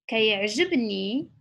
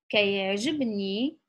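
The two takes are said the same way.

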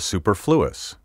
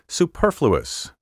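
First: The stress is shifted to another syllable. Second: The stress is on the traditional syllable. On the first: The speaker calls it wrong. "so many speakers now misplace the accent" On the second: The speaker calls it right. "my first pronunciation of each word was the proper one"

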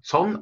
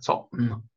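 First: The word is said smoothly without a break. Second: The word is said with a break inside it. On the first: The speaker calls it right. "именно как цон" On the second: The speaker calls it wrong. "а не как цон"

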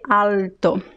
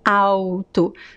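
First: The first syllable ends with a clear L sound. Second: The first syllable ends with a W-like sound. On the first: The speaker calls it wrong. "We don't say alto" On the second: The speaker calls it right. "there is no L sound in this word"

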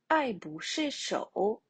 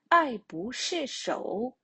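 The two takes are said the same way.

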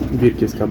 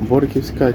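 First: The first vowel is an i sound. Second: The first vowel is an o sound. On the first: The speaker calls it right. "Бірківська барвиста, мабуть, правильніше" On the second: The speaker calls it wrong. "Борківська чи бірківська барвиста, як правильно сказати"

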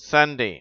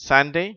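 Both takes have the same delivery.

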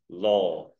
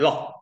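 First: The vowel is long. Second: The vowel is short. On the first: The speaker calls it right. "This is a long O" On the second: The speaker calls it wrong. "So we don't say long"

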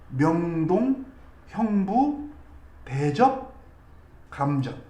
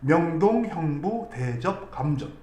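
First: The phrase is said at a normal pace. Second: The phrase is said quickly.

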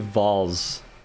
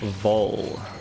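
First: The name ends with a z sound. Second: The name ends without a z sound. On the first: The speaker calls it wrong. "like with the Z at the end" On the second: The speaker calls it right. "You pronounce it like you pronounce bowl"

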